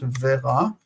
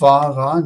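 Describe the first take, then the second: First: The first vowel is an 'e' sound. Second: The first vowel is an 'a' sound. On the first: The speaker calls it wrong. "not vera" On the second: The speaker calls it right.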